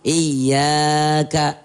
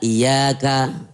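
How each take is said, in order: First: The word is drawn out even longer. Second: The word is drawn out somewhat. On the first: "atau kadang lebih panjang lagi" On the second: "iyyaka dibaca iyyaka"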